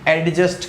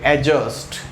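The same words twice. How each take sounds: First: A d sound is heard before the j. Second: No d sound is heard before the j. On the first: The speaker calls it wrong. "अरे मेरे भाई वो एडजस्ट नहीं होता।" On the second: The speaker calls it right. "ए और जे के बीच में लिखा हुआ डी नहीं पढ़ते हैं तो क्या बोलेंगे"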